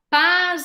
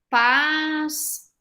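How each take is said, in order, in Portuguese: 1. A palavra termina com som de 'z'. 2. A palavra termina com som de 's'. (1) "som de S se transforma em Z" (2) "ele vai ter som de S no final da palavra"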